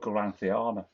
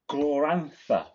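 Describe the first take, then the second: First: The name ends with the syllables 'thiana'. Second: The name ends with the syllable 'tha'. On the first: The speaker calls it wrong. "I always call it Gloranthiana for some reason" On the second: The speaker calls it right. "it's Glorantha"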